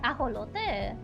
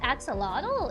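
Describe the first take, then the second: First: It is pronounced the Spanish way, with a throaty h sound. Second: It is pronounced the English way, with an x sound. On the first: "In Spanish" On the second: "if it's in English"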